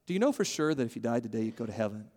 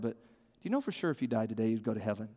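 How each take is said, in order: First: Quiet earnest repeat; soft sincere question repeated. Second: Quiet earnest ask; soft sincere question. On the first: Preacher repeating the question to a friend softly. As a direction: ask it again, just as soft. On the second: Preacher modelling the key question in a soft voice. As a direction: lower and softer, like a concerned friend. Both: Shown as a demonstration. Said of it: "But to ask someone is to say".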